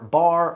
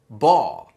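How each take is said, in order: First: The final R sound is pronounced. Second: The final R sound is dropped. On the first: "it's not car, bar" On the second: "It's caw, baw"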